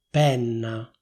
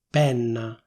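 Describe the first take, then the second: No difference in how they are said.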